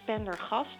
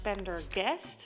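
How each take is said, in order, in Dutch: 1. De naam wordt met Nederlandse klanken uitgesproken. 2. De naam wordt met Amerikaanse klanken uitgesproken. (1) "je schrijft het als pendergast" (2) "je het uitspreekt als pendergast. Want het is zo Amerikaans als er maar zijn"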